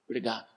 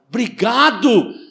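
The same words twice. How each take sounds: First: It is said flatly, without feeling. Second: It is said warmly, with strong feeling. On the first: The speaker calls it wrong. "quando você fala assim" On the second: The speaker calls it right. "Agradecer com emoção"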